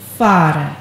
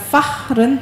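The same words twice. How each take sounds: First: The h in the middle is silent. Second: The h in the middle is sounded. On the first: The speaker calls it right. "itu tidak ditekan" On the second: The speaker calls it wrong. "bukan fahren"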